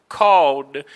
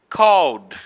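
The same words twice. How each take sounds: No difference in how they are said.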